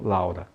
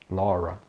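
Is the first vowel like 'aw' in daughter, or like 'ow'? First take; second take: ow; aw. First: The first vowel sounds like 'ow'. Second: The first vowel sounds like 'aw' in daughter. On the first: The speaker calls it wrong. "e não Laura" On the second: The speaker calls it right. "O nome da pessoa Laura é Laura"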